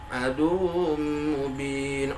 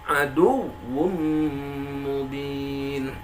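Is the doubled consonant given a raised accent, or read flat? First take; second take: flat; accented. First: It is read flat, without raised accent. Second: The doubled syllable gets a raised accent. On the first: The doubled letter sounds as if it were single. The speaker calls it wrong. "seolah wawnya nggak bertasydid kalau tidak dianabarkan" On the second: The doubled letter is heard clearly. The speaker calls it right.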